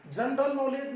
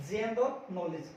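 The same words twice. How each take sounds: First: जनरल नॉलेज opening with "jun"; short a in जनरल नॉलेज, "jun-ral nolej"; mispronounced जनरल नॉलेज. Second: जनरल नॉलेज slowly, opening with "jen"; correct जनरल नॉलेज. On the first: Teacher rejecting the common form, जनरल नॉलेज as "jun-ral nolej". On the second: Teacher correcting learners, जनरल नॉलेज slowly as "jen-ral nolij". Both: Shown as a demonstration. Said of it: "जनरल नॉलेज नहीं".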